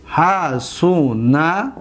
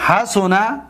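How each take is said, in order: First: Very slow, each syllable held; lower, drawn-out teaching pronunciation. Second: Said in the usual way. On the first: Shown as a demonstration. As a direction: stretch it out syllable by syllable. Second take broken into syllables.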